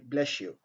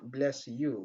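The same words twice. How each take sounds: First: The s and y merge into a sh-like sound. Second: The s and y sounds stay separate. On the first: "on dit bless you" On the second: "Au lieu de dire bless you"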